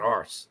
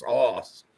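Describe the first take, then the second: First: Arse with a flat "ahr" vowel and the r sounded; rejected arse. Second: Arse with a round open vowel and no r; Scottish arse. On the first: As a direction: say arse as "ahrss", the wrong way here. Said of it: "Not arse". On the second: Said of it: "No, Scottish. It's arse". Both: Shown as a demonstration.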